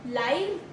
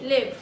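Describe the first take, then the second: First: The vowel is long, rhyming with five. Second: The vowel is short, rhyming with give. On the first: Alive, or happening in real time. "Pronunciation two is L Y V. Rhymes as five" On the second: To have a life or reside somewhere. "L I V, live. Pronounce, uh, rhymes as give"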